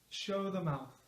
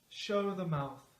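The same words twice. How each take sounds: No difference in how they are said.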